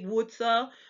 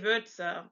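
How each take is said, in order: First: The first vowel is a plain u sound. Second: The first vowel is an umlaut ü sound. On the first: The speaker calls it wrong. "You wouldn't say Wurze" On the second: The speaker calls it right. "it sounds like the U in hurt"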